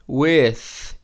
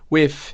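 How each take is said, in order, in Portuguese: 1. Termina com som de TH, com a língua entre os dentes. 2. Termina com som de F em vez de TH. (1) "esse som de T H aqui" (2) "vários sotaques não usam esse T H. Então você pode falar se quiser"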